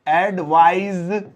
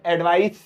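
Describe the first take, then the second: First: "एडवाइज" slowly, ending in a buzzing z; buzzing z sound. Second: "एडवाइस" ending in a hissed s; s sound at end. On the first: Teacher slowly shows the verb ending in z. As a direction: stretch "एडवाइज" and buzz the final z. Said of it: "इसमें current वाली आवाज आती है". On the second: Teacher shows the noun ending in s. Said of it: "सा की आवाज आती है लास्ट में". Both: Shown as a demonstration.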